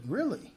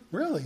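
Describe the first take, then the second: First: Surprised really. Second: Restrained really. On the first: Retold surprise at Jamie. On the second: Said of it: "really contain myself". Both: Retold or imitated.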